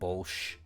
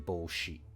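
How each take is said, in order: First: The final vowel is dropped, ending in sh. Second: The final vowel is pronounced after sh. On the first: "I tend to pronounce she's as sh, just sh" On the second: "people will say bolshi, I think, generally"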